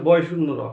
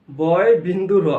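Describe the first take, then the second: First: Put-on "বয় শূন্য র" run together, boy-shunno-ro; common wrong name. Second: "বয় বিন্দু র" slow, loud, word by word; corrected name. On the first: Teacher quoting what everyone answers, running "বয় শূন্য র" together. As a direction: say "বয় শূন্য র" briskly as one familiar name. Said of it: "এটা বয় শূন্য র নয়". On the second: Teacher drilling the right name, slow loud "বয় বিন্দু র". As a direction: stretch out "বয় বিন্দু র" with emphasis. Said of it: "এটা হচ্ছে বয় বিন্দু র". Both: Shown as a demonstration.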